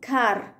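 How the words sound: American accent, the final R is pronounced.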